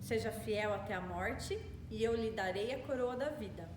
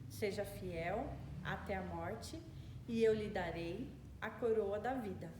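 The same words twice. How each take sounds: First: It is spoken at a normal pace. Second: It is spoken very slowly.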